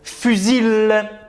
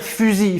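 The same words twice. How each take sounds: First: The final L sound is pronounced. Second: The final L sound is left silent. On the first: The speaker calls it wrong. "On va pas dire fusil" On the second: The speaker calls it right. "كان L غير موجود"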